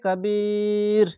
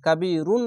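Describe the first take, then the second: First: The word stops short without the -un ending. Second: The word ends with a full -un ending. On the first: The speaker calls it right. "কাবির এভাবে থামবেন" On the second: The speaker calls it wrong. "কাবিরুন না বলে"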